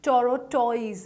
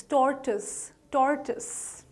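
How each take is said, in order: First: "tortoise" as toro-TOYS; mispronounced tortoise. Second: "tortoise" as TOR-tus, twice; correct tortoise. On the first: Teacher warning learners off wrong tortoise, mispronounced. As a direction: say "tortoise" in three syllables with oy. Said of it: "It's not". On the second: Teacher drilling learners on the right tortoise, slowly. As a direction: slowly repeat "tortoise" with reduced ending. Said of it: "tortoise is the correct pronunciation". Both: Shown as a demonstration.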